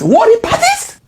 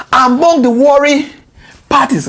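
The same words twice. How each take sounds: First: "Warring parties?" shot up high in disbelief; can't believe the phrase "Warring parties"; incredulous question. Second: Said in the usual way. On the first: Real, not acted. Questioning the president's wording, high and disbelieving.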